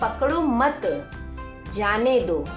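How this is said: There is a pause after the word mat. Do not catch the child; let him go. "मत बोलने के बाद आप यहाँ पर देख रहे हैं ये छोटा सा अल्प विराम"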